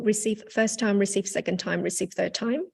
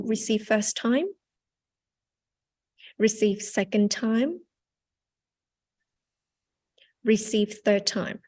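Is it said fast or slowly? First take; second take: fast; slowly. First: It is said fast, without pauses. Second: It is said slowly, with pauses.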